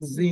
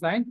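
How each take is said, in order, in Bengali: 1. স্বরধ্বনিটি 'ee'-এর মতো শোনায়, যেমন 'zint'-এ। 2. স্বরধ্বনিটি 'eye'-এর মতো শোনায়, যেমন 'zeint'-এ। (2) "এটার উচ্চারণ কি জাইন্ট না জিন্ট?"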